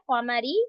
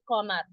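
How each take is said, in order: First: The word ends with a short vowel. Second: The word ends on a bare consonant.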